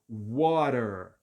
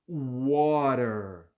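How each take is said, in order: First: The t sounds like an r; final r sounded. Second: The t sounds like an r; final r sounded.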